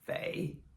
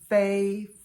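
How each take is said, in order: First: It is said with the third tone. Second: It is said with the first tone.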